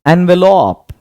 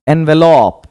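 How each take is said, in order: The two takes are said the same way.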